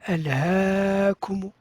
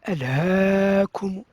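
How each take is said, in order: No difference in how they are said.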